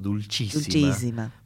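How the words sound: It is pronounced the Italian way. "porque lo pensamos como a la italiana"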